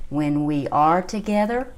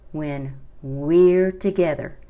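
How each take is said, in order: First: "we are" as two separate words; WE ARE uncontracted. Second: Slow phrase, "we're" drawn out as one syllable. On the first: Teacher spells out the contraction for learners, "we are" in two syllables. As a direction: give "we" and "are" a syllable each. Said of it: "No se pronuncia como we are". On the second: Teacher models the song line to learners, "we're" in one syllable. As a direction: run "we're" together into a single long beat. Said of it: "se pronuncia como una sílaba". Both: Shown as a demonstration.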